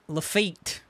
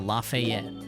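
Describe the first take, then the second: First: The name is said with two syllables. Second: The name is said with three syllables. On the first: The speaker calls it right. "Got it" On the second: The speaker calls it wrong. "Saying it wrong"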